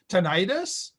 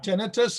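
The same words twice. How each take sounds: First: The stress is on the second syllable. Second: The stress is on the first syllable. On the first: "put the accent on the second syllable" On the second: "the Canadian more common pronunciation"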